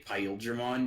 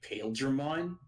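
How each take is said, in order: First: The name is said with a Japanese-style pronunciation. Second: The name is said the way its English spelling suggests. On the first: "the way you say it is the Japanese" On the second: "it looks like his name should be Pale Dramon"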